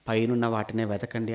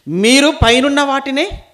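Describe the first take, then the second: First: Said in the usual way. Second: High, loud, drawn-out verse; emphatic proclamation. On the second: Acted. Preacher repeating Paul's verse to the congregation, loud and emphatic. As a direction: proclaim it slowly at full preaching voice.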